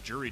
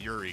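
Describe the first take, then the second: First: The name begins with a J sound. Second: The name begins with a Y sound. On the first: The speaker calls it wrong. "Juri doesn't sound right" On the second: The speaker calls it right. "I'm gonna guess to pronounce her name Yuri"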